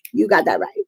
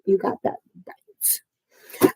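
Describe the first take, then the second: First: Said in the usual way. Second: Slow, drawn-out whisper; whispered agreement. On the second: Real, not acted. Streamer agreeing with a viewer in the chat, whispered slowly. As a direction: whisper it slowly, stretching each word. Same words repeated in a whisper.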